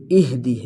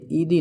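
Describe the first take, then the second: First: "اہدی" with an audible breathed h before d; ih-dee, sound the h in "اہدی"; clear ha. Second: "ایدی" as ee-dee, h dropped; missing ha. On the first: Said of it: "ہا کو واضح کرنا ہے". ("اہدی" ہا واضح کر کے) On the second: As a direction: stretch the vowel of "ایدی" instead of sounding h. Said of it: "یہ ایدی نہیں". ("ایدی" ہا ظاہر کیے بغیر) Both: Shown as a demonstration.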